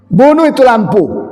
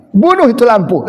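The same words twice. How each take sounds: First: Gruff Batak husband. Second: Raised Makassar-style "Bunuh itu lampu"; Makassar accent. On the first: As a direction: bark "Bunuh" hard and falling in a Batak accent. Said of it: "kalau orang Batak lebih dahsyat". (logat Batak keras, "Bunuh" ditekan turun) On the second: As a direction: stress "Bunuh" falling, Makassar dialect. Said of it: "orang Ujung Pandang". (logat Makassar, "Bunuh" ditekan) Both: Retold or imitated.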